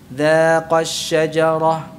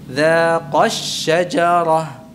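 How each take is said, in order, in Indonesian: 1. Kata pertama diucapkan tanpa tekanan. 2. Kata pertama diucapkan dengan tekanan. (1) "yang pertama dengan bacaan yang salah" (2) "Yang kedua yang benar"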